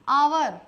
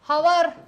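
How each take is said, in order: First: The word begins with a vowel sound. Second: The word begins with an h sound. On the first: The speaker calls it right. "पढ़ोगे सही आवर" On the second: The speaker calls it wrong. "अगर बोला हवर, हवर के साथ में आया ए और होगा वो गलत"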